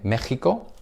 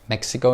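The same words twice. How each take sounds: First: The word is said with Spanish pronunciation. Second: The word is said with English pronunciation. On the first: "Mexico in Spanish" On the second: "Mexico in English"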